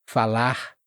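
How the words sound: The final R is a light breathy sound. "som aspirado de árvore ... mas não precisa ser muito forte"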